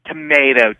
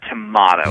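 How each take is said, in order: First: "tomato" with a long AY in the middle; to-MAY-to. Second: "tomato" with an AH in the middle; to-MAH-to. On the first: Likening Pittsburgh to Erie, "tomato" as to-MAY-to. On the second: Likening Pittsburgh to Erie, "tomato" as to-MAH-to. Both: Shown as a demonstration. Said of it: "It's completely different".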